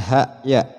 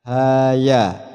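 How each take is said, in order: First: Ha and ya end with a glottal catch. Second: Ha and ya end openly with no glottal catch. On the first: The speaker calls it wrong. "bukan ha ya" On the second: The speaker calls it right. "Maka dibaca ha ya"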